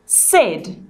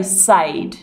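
First: "said" with a short e, rhyming with bed; short-vowel "said"; said as "sed". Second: "said" mispronounced with a long ay, like "sayed"; said as "sayd". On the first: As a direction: pronounce "said" like "sed". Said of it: "We pronounce this word". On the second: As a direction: say "said" to rhyme with paid. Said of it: "We don't say". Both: Shown as a demonstration.

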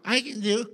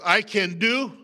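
First: Said in the usual way. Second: Aggressive. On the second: Shown as a demonstration. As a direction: say it with fight, loud and forceful. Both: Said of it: "did you hear the aggressiveness".

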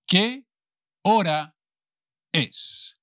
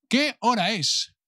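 First: "Qué... hora... es" in separate pieces; palabra por palabra. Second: Said in the usual way. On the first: Shown as a demonstration. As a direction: say "Qué hora es" one word at a time, long pauses. Teacher models question word by word. (palabra por palabra, con pausas largas)

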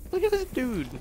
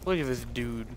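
First: Put-on, very high squeaky repeat; high-pitched voice. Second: Said in the usual way.

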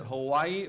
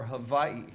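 First: Said in the usual way. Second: Hawaii with a v in place of the w; v pronunciation. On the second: Retold or imitated. Young newcomer asking a local which is right, Hawaii said with a v. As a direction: pronounce Hawaii "Ha-VAI-ee". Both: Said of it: "Which, which is it".

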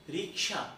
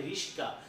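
First: Said in the usual way. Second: রিস্কা with s and k swapped, said as riska; swapped sounds. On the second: Shown as a demonstration. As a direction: say রিস্কা as a slightly distorted riska. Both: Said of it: "এই শব্দটিকে একটু বিকৃত করে".

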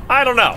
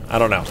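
First: Squeaky high goofy voice; high silly voice. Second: Said in the usual way. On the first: Shown as a demonstration. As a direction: pitch it way up, silly.

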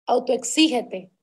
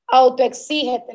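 First: Said in the usual way. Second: Autoexígete called out loud and slow, falling hard at the end; commanding call. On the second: Shown as a demonstration. Leader ordering her team to push themselves, loud and slow. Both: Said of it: "sé radical contigo".

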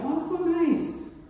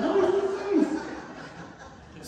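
First: High, slow, sugary "Oh, so nice"; mock sweet gush. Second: Laughing gush. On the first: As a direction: gush over the free breakfast. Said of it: "And I'm like". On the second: Retold or imitated. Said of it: "I've drastically changed".

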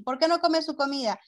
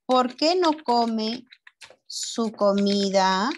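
First: Said in the usual way. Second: Slow question, split before "su comida"; slow dictation. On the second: Shown as a demonstration. Teacher writes out a pupil's question, slow dictation. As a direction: dictate in pieces, rising at each end.

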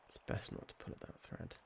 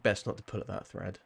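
First: Whispered under the breath; barely voiced cautionary whisper; hushed aside. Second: Said in the usual way. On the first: Real, not acted. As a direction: repeat it as a very soft, low warning to yourself.

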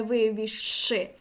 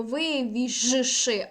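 First: Вивіжши slowly said as вивішши, no voiced ж; long sh instead. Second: Вивіжши drawn out very slowly, voiced ж then ш; voiced zh before sh. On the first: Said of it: "а не". (вивіжши як вивішши, з довгим ш) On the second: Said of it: "«ж ш»". (дуже повільно вивіжши, дзвінке ж перед ш) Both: Shown as a demonstration.

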